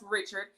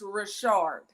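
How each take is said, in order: First: The name has the usual English pronunciation. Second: The name has a French Creole pronunciation. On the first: The speaker calls it wrong. "it's not pronounced Richard" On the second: The speaker calls it right. "it's Richard"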